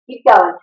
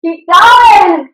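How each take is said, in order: First: Said in the usual way. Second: Higher, louder shouted push; shouted keep going; coaching shout. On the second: Real, not acted. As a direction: yell it to drive them on. Coach pushing class, loud shout.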